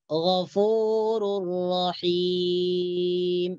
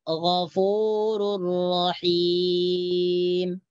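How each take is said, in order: No difference in how they are said.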